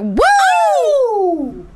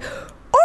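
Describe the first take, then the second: First: High, loud mock wolf "Woo!"; mock excited woo. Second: Whispered falling "Ooh!" like a slow grenade; breathy falling ooh. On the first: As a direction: yelp it like an overexcited wolf. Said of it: "What it was, was a wolf cry". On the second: Retold or imitated. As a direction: let it fall away like a dropping grenade. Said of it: "No, no, it's like".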